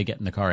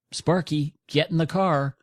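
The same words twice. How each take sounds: First: Said in the usual way. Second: Higher-pitched call to the dog, Sparky. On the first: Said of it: "if you don't say". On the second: Retold or imitated. Owner calling dog into the car, higher command. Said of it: "and you say".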